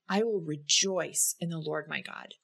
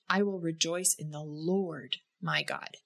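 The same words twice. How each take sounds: First: The stress falls on the word "rejoice". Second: The stress falls on the word "Lord". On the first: Having joy is intentional. "In the second instance, you notice that having joy, again, is intentional" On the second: The joy is found in the Lord as king. "And the third time, we notice that rejoicing in the Lord, that He is the King of our lives"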